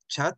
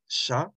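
First: The word begins with a 'ch' sound. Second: The word begins with an 'sh' sound. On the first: The speaker calls it wrong. "if you read it in English, but they know it's not chat" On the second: The speaker calls it right. "it's sha"

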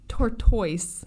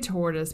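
First: It is pronounced in an unusual, Scottish-style way. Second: It is pronounced in the ordinary, usual way. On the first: "I'm going to say it like this because I want to. I heard someone on another radio podcast say this because she was from Scotland" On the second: "I'll say tortoise because they'll probably annoy people"

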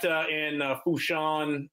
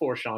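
First: The name is said without an R sound. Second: The name is said with an R sound. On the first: The speaker calls it right. "I gotta say it right" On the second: The speaker calls it wrong. "not Forshawn. You don't pronounce that R"

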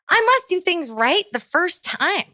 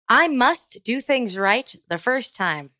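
First: It is read with lively, dramatic inflection. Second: It is read flatly, like a robot. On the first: "Let me try a different set of inflection" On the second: "did that sound like I was a robot that was learning how to speak?"

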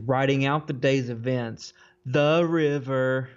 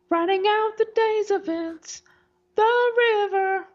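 First: It is said in an ordinary speaking voice. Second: It is said in an exaggerated put-on voice.

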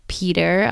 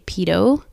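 First: The word ends with an R sound. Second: The word ends without an R sound.

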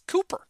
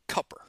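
First: The first vowel is long, as in 'coop'. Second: The first vowel is short, as in 'cup'. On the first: This is how the spelling suggests the name is said. The speaker calls it right. "it has two O's in it. It's Cooper" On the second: This is how people down south say the name. The speaker calls it wrong. "they pronounce it Cupper. And that really bothers me"

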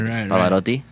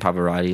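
First: It is said with an Italian accent. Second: It is said with an American English accent. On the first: The speaker calls it right. "like Pavarotti" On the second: The speaker calls it wrong. "rather than Pavarotti"

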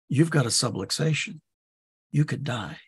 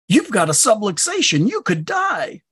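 First: It is said in a serious tone. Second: It is said in an excited tone.

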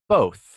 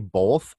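First: The word is said without an L sound. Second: The word is said with an L sound. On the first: The speaker calls it right. "then I have to go back and be like" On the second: The speaker calls it wrong. "I put an L in there for some reason"

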